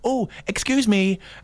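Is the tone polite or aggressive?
polite. It is said in a polite, mild tone.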